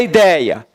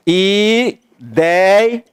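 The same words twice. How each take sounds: First: Said in the usual way. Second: IDEIA split as i, dei, a; divided into syllables. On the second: Shown as a demonstration. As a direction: say Ideia slowly, one syllable at a time. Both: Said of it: "Como é que pronuncia".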